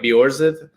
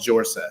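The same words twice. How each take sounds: First: The name is said with a Norwegian pronunciation. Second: The name is said with an American-sounding J. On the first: This is how the name is meant to sound. The speaker calls it right. "more like Bjorseth uh, in, in Norwegian" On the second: This is how the family says it day to day. The speaker calls it wrong. "we go with the American accent, so we, we like to pronounce the J"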